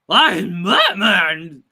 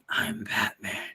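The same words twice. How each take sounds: First: It is said in a goofy, cartoonish put-on voice. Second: It is said in a serious, heroic put-on voice. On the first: The speaker calls it wrong. "Once you start getting goofy, then you start to sound like Scooby Doo" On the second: The speaker calls it right. "you're trying to impersonate Batman, you're like"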